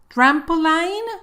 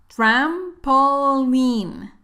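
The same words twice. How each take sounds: First: The last syllable sounds like 'line'. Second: The last syllable sounds like 'lean'. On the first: The speaker calls it wrong. "No vayas a decir line" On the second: The speaker calls it right. "Escucha la pronunciación correcta"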